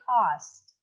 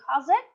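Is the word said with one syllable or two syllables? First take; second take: one syllable; two syllables. First: The word is said as one syllable. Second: The ending is said as an extra syllable. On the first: The speaker calls it right. "but you would say cost" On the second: The speaker calls it wrong. "you don't say cause it"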